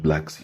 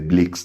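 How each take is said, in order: First: The word is said in a plain accent. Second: The word is said in a South African accent.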